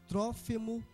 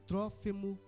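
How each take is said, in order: The two takes are said the same way.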